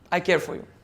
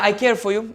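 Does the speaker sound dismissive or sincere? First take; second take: sincere; dismissive. First: It is said warmly and sincerely. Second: It is said casually and dismissively. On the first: The speaker truly means it. "Would you believe me?" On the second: The speaker does not really mean it. "the tone that I have utilized are different"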